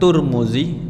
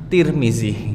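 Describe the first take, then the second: First: The first syllable has the vowel u. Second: The first syllable has the vowel i.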